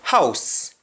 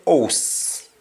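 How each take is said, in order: First: Said in the usual way. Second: "house" with no H, like "ohs"; drawn-out Patois "house", said "ohs"; Jamaican pronunciation. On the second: Shown as a demonstration. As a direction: drop the H of "house" and round the vowel to O. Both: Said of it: "we say house".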